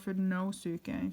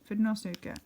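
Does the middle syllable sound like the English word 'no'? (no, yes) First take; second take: yes; no. First: The middle syllable sounds like the word 'no'. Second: The middle syllable does not sound like 'no'.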